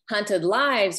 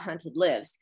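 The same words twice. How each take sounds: First: 'Lives' has a long i, rhyming with hives. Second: 'Lives' has a short i, rhyming with gives. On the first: The lives of people being hunted. "refers to the people who are being hunted" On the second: Something stays alive. "refers to the hunted one's game being alive"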